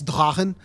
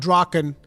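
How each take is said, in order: First: The word is said with a German-style pronunciation. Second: The word is said with an English-style pronunciation. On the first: The speaker calls it right. "it is a German pronunciation" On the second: The speaker calls it wrong. "actually it's not Draken"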